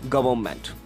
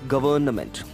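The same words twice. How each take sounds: First: The middle N sound is left out. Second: The middle N sound is pronounced. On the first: The speaker calls it right. "the N should be silenced here" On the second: The speaker calls it wrong. "we pronounce it like government"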